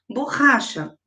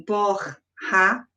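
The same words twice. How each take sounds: First: Said in the usual way. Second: "borracha" slowly broken as bor... ra... cha; split into syllables. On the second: Shown as a demonstration. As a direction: pause between each syllable of "borracha". Teacher demonstrates syllable separation.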